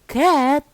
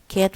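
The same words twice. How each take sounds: First: The pitch rises and then falls. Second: The pitch stays level across the word. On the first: "with uh, rising falling" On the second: "was level"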